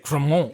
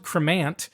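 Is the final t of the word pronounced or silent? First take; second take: silent; pronounced. First: The word is said the French way, t silent. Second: The word is said as spelled, t pronounced. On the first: "I'm trying to say it in the French way" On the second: "it's spelled cremant"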